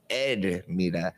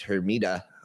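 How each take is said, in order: First: The name begins with no H sound. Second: The name begins with an audible H sound. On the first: "They don't even pronounce the H" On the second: "That's the way the gringos say it"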